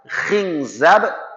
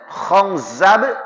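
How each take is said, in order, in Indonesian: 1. Vokal pertama itu bunyi i. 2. Vokal pertama itu bunyi a. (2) "Ada yang fathah"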